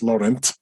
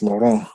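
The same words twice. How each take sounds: First: The name is said with an American pronunciation. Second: The name is said with a French pronunciation. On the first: The speaker calls it wrong. "there in America, they say Saint Laurent, which to my ears is like really uncouth" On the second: The speaker calls it right. "that's French, isn't it? It's Laurent"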